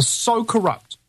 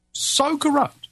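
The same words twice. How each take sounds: First: "so corrupt" with "so" pushed up high; stress on so. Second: "so corrupt" again, pitched higher still on "so"; emphatic repeat. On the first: Retelling the sergeant's verdict, stressing "so" in "so corrupt". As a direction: lean on "so" in "so corrupt". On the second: Repeating the sergeant's words, pushing "so corrupt" higher. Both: Real, not acted.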